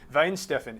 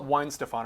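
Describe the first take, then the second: First: The name is said with a German-style pronunciation. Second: The name is said with a plain American pronunciation. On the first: It sounds pretentious, like showing off. "if you go, oh, this is a lovely Weinsteffen, it's almost like saying uh, this morning for breakfast I had a croissant" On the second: It sounds ordinary and everyone understands it. "call it Weinstefan, everybody knows what you're talking about"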